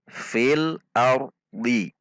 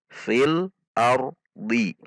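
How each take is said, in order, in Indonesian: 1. Frasa ini berakhir dengan vokal i pendek. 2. Frasa ini berakhir dengan vokal i pendek.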